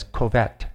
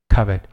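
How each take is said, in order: First: Covet with a long O, "koh-VET"; Kaylin. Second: Said in the usual way. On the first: Retold or imitated. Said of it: "Or as Kaylin says, covet". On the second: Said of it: "Or as Kaylin says".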